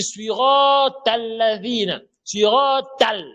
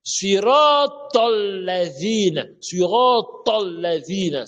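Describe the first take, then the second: First: SURAT AL chanted high with a thin TAL; wrong light TAL. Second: SURAT AL-LADHINA chanted slowly, t heavy as TOL; correct emphatic TOL. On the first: Retold or imitated. Teacher imitating a faulty reciter, high chanted tal. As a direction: draw out SURAT AL, linking it as an open tal. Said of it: "Il dit tal". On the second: Shown as a demonstration. Teacher correcting the verse, slow chant with heavy tol. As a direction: draw out SURAT AL-LADHINA, rounding the link to tol. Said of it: "Ce n'est pas surat al".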